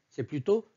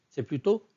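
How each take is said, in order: No difference in how they are said.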